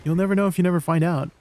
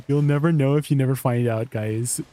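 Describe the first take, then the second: First: Said in the usual way. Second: Says it through a laugh. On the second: Real, not acted. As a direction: giggle your way through the motto.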